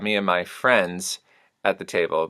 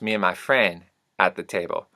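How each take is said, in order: First: The final S of friends is heard. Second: The final S of friends is dropped.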